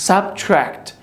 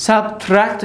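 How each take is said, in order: First: Subtract said carefully with a blended tr; the teacher's correct Subtract for students to copy; correct pronunciation. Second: Subtract said the way learners get it wrong; the teacher's example of a bad Subtract; wrong pronunciation. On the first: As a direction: model Subtract the right way. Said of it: "Subtract نمیگیم". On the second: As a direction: mispronounce Subtract on purpose. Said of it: "نمیگیم". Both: Shown as a demonstration.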